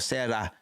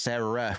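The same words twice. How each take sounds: First: The R is a quick tongue tap. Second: The R is a smooth English R. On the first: "where your tongue kind of uh, taps the top of your of your mouth" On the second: "instead of Sarah, where your tongue kind of stays stays at the bottom of your mouth"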